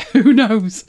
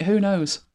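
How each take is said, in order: First: Who knows said louder through a laugh. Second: Said in the usual way. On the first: Real, not acted. Host cracking herself up over the Pet vaccine joke, laughing.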